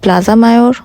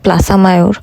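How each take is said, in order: First: It is pronounced with an English accent. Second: It is pronounced with a Spanish accent. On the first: "ইংলিশে বলা হয়" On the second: "স্পেনে সেটাকে উচ্চারণ করা হয়"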